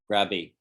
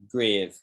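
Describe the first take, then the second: First: The word is said with a b sound. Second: The word is said with a v sound. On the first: "because the V sounds like a B" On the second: "In English, we say grave"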